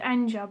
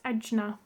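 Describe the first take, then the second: First: The n sound comes before the j sound. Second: The j sound comes before the n sound. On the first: The speaker calls it wrong. "I said Anja" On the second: The speaker calls it right. "but that's Ajna"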